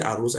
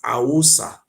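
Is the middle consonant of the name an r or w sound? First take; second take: r; w. First: The middle consonant is an r sound. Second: The middle consonant is a w sound. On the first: The speaker calls it wrong. "only they will say Arosa, it's not Arosa" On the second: The speaker calls it right. "It's Awosa, the eye of Usa"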